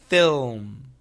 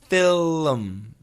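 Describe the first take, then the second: First: The tongue holds the L while the lips close. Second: The tongue moves off the L before the M. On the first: The speaker calls it right. "Keep the tongue there. ... That's the perfect sound" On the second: The speaker calls it wrong. "If you move the tongue, this is what happens. ... That's wrong"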